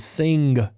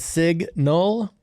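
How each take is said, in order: First: The N sound comes before the G sound. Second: The N sound comes after the G sound. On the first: The speaker calls it wrong. "I put the N in the wrong place" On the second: The speaker calls it right. "Instead of a signal, like turn signal"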